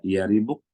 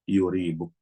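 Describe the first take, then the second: First: The first vowel is an 'a' sound. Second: The first vowel is a 'u' sound. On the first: "Bisa di fathah" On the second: "bisa di dhammah"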